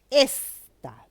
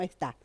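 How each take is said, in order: First: "Esta" with a loud, drawn-out ES; stress on first syllable. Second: Wrong-stress demo, "esta" as es-TÁ; stress on last syllable. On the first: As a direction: punch the first syllable of "Esta", then drop off. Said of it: "decimos, no decimos esta". ("Esta" con énfasis fuerte en la primera sílaba) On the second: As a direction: shift the weight of "esta" onto the final TA. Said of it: "no decimos esta". ("esta" con el acento en la última sílaba) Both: Shown as a demonstration.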